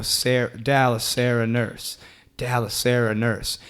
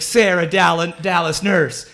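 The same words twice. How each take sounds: First: Soft, measured beat on each word; rhythmic recital. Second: Higher-pitched, searching chant; lost volunteer imitation. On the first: Retold or imitated. Comic showing volunteer how to repeat it, rhythmic recital. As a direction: say it evenly like a repeated chant. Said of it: "say that in this rhythm". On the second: Retelling blindfolded woman left alone on stage, searching chant. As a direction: mimic her groping about while still chanting. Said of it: "she's, like, reaching around trying to find us".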